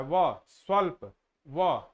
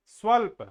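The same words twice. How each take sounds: First: Each sound of व, स्वल्प drawn out at half speed; slow motion. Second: Said in the usual way. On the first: Shown as a demonstration. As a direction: stretch व and स्वल्प out syllable by syllable. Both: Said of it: "धीरे धीरे, slow motion में".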